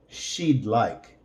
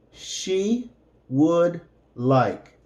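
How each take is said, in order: First: Said in the usual way. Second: "She would like" said slowly, each word apart; careful classroom model; slow separated words. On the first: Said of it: "and then with the contraction". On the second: Shown as a demonstration.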